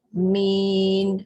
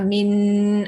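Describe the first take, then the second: First: The vowel is held long; the final n is short. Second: The final n is held long after the vowel. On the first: The speaker calls it right. "Mi panjang dulu baru mati nun" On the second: The speaker calls it wrong. "tak nak en tu yang panjang. En tak panjang"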